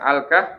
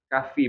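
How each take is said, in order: First: The word ends on h, with no f. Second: The word ends on f followed by an i vowel. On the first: "bukan Al-Kah" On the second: "Boleh sih kalau menyebutkan surat Al-Kahfi"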